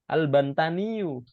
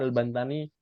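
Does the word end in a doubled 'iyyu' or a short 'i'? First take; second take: doubled iyyu; short i. First: The word ends in a doubled 'iyyu' sound. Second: The word ends in a plain short 'i'. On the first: "aslinya seperti itu" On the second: "Kalau mensukunkan ya langsung aja"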